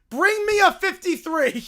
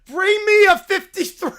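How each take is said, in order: First: Said in the usual way. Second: Booming demand with a laugh; mock insistent shout; louder laughing demand. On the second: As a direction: hammer the demand home.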